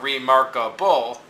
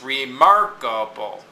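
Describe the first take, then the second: First: The stress falls on a syllable other than mark. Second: The stress falls on the syllable mark. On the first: The speaker calls it wrong. "it's not remarkable" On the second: The speaker calls it right. "but it's remarkable"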